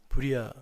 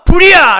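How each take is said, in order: First: It is said softly and gently. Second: It is shouted loudly and urgently.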